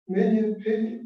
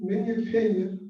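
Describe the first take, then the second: No difference in how they are said.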